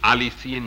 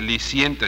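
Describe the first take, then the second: First: The word starts with an extra a sound. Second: The word starts directly with the syllable li. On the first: The speaker calls it right. "sino aliciente" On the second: The speaker calls it wrong. "no se dice liciente"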